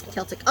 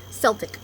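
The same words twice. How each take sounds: First: "Celtic" starting with a K sound, softer; hard K pronunciation. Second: "Celtic" starting with an S sound; soft C pronunciation. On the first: Vlogger compares both ways of saying it, K-sound "Celtic". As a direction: say "Celtic" as kell-tick. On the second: Vlogger compares both ways of saying it, S-sound "Celtic". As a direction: say "Celtic" as sell-tick. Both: Shown as a demonstration. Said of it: "Okay, either one, really".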